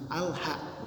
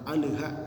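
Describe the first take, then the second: First: The l is clean with no bounce. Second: The l bounces with an echoing release. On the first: The speaker calls it right. "harus bersih, terdengar jelas" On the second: The speaker calls it wrong. "alnya terdengar mantul"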